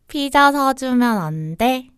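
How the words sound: It is said in a cute, pleading tone. The speaker is asking sweetly for a favor. The speaker calls it right. "요청하고 애교 부리는 상황에"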